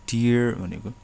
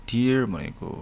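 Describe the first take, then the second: No difference in how they are said.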